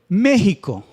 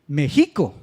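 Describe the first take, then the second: First: The stress is on the first syllable. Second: The stress is on the middle syllable. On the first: The speaker calls it right. "la sílaba fuerte es la antepenúltima" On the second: The speaker calls it wrong. "La penúltima"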